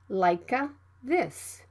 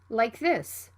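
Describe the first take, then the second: First: The K is fully released before the TH. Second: The K is cut short before the TH. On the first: The speaker calls it wrong. "Don't say" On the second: The speaker calls it right. "It can also be unreleased"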